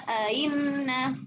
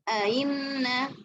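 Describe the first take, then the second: Both takes have the same delivery.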